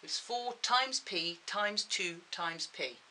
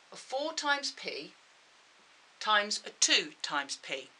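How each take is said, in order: First: Times stressed slowly, each one. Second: Each times stressed slowly; slow emphatic reading. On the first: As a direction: lean slowly on every times. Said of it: "Remember, they're all multiplied together". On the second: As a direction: read every factor out slowly. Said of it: "So numbers first". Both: Shown as a demonstration.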